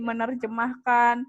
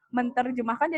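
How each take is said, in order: First: The t sound merges into the nasal. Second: The t sound is kept after the prefix. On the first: The speaker calls it right. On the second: The speaker calls it wrong.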